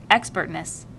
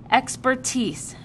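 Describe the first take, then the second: First: Expertness said as the wrong form, plainly; wrong word. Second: Expertise said slowly and clearly, falling at the end; correcting. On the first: Asher misspeaks Expertness. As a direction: stumble onto Expertness. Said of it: "Jonas corrected him". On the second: Jonas corrects his friend, Expertise said slow and clear. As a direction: spell out Expertise patiently. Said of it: "corrected him automatically". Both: A narrator's reading.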